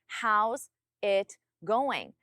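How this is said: There are pauses between each of the words. The speaker calls it wrong.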